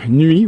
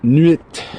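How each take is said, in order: First: The final T is silent. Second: The final T is clearly pronounced.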